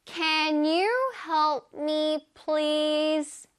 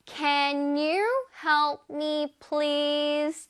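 First: Can you help me, please? 를 한 단어씩 아주 천천히; slow model sentence. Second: Can you help me, please? 를 다시 한 번 아주 천천히; slow model sentence. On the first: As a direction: read it out slowly word by word for learners. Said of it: "짜잔". (아주 천천히 또박또박 읽어 주는 예문) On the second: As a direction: repeat slowly for learners to copy. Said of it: "One more time". (다시 한 번 천천히 또박또박) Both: Shown as a demonstration.

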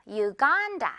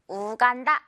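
First: "유간다" said yoo-GAAN-da, middle syllable long and stressed; English pronunciation. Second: "우간다" said oo-gan-da, short even syllables; Korean pronunciation. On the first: Teacher models the English name, "유간다" as yoo-GAAN-da. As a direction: start "유간다" with "yoo" and stretch 간. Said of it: "간 부분 강세 주면서 길게 끌어주면". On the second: Teacher shows learners the form to avoid, Korean-style "우간다" as oo-gan-da. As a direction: begin "우간다" with plain "oo", no y-glide. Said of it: "우간다 아니고요". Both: Shown as a demonstration.

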